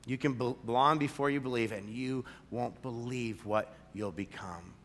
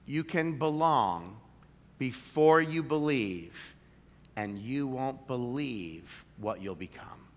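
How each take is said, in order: First: Said in the usual way. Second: Belong and before drawn out slow; slow emphatic slogan. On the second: Shown as a demonstration. Pastor presenting the church motto, slow and emphatic. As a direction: land each word of the motto. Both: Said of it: "we'd say it like this".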